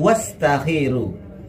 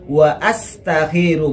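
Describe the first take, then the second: First: The 'wa' runs straight into the verb. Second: The hamza is pronounced separately after 'wa'. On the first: The speaker calls it wrong. "bukan wastakhiru" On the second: The speaker calls it right. "Jadi yang betul wa astakhiru"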